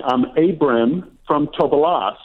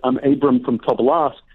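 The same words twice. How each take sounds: First: Said in the usual way. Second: Light Russian Jewish accent on a retold introduction; slightly Russian Jewish-accented English. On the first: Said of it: "he was saying". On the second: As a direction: imitate an immigrant grandfather's Russian Jewish accent. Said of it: "Russian Jewish accent".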